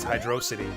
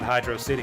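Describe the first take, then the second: First: The main stress falls on dro. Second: The main stress falls on city. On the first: The speaker calls it right. "You gotta emphasize the dro" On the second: The speaker calls it wrong. "it's not Hydro City"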